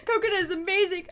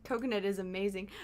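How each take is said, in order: First: Higher, louder, fast sarcastic praise; mock enthusiasm. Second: Said in the usual way. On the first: Shown as a demonstration. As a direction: overdo the praise with a laugh.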